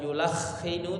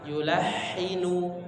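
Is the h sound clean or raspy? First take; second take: raspy; clean. First: The h sound is raspy and rough. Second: The h sound is clean and smooth. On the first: The speaker calls it wrong. "bukan yulakhinu" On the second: The speaker calls it right. "Bersih ya, tidak ada suara getaran atau suara seperti ngorok ya"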